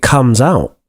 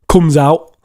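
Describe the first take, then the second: First: It is said with a standard British accent. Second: It is said with a Liverpool accent. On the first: "And received pronunciation" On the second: "That's Liverpool"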